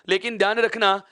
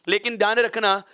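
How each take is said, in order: Both takes have the same delivery.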